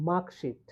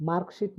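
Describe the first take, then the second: First: মার্কশিট with no r; silent R. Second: মার্কশিট with the r sounded; R pronounced. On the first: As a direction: say মার্কশিট as "maak-sheet". (র বাদ দিয়ে মার্কশিট) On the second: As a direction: say মার্কশিট with r before the k. (র উচ্চারণ করে মার্কশিট) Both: Shown as a demonstration. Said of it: "আর এর উচ্চারণ হবে না".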